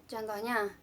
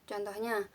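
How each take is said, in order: No difference in how they are said.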